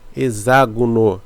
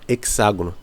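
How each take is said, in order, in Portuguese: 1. O x tem som de z. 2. O x tem som de ks. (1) "hexágono se lê como se fosse Z, tá? Tem som de Z" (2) "Não se fala hexágono"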